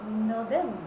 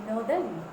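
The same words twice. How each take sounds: No difference in how they are said.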